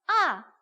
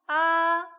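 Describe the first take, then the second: First: The pitch falls sharply from high to low. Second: The pitch stays high and level. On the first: "사성까지 있어요" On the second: "일"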